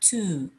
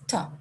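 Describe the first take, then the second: First: The vowel is long and full, like 'two'. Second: The vowel is short and weak, like 'tuh'. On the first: "Before vowels, to is generally pronounced to, like the word to" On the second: "Before consonants, to is generally pronounced t, like the, the, the first sound in the word tap"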